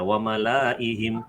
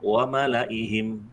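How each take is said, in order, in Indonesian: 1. Vokal 'la' dibaca panjang. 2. Vokal 'la' dibaca pendek. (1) "Jadi Bapak tidak membaca" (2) "tetapi itu cara bacanya pendek"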